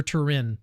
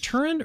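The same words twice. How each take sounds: First: "Turin" with the stress at the end, tuh-RIN; second-syllable stress. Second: "Turin" with the stress up front, TUR-in; first-syllable stress. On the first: Host offers guest the other way, second-syllable stress. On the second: Host asks guest which way to say it, first-syllable stress. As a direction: say "Turin" as TUR-in, weak ending. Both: Shown as a demonstration. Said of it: "is it Turin or Turin".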